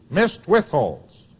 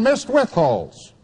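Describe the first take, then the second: First: "Missed" slowed and leaned on, then withholds falls away; slow, deliberate repeat weighing the word "Missed"; stress on missed. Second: Said in the usual way. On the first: Shown as a demonstration.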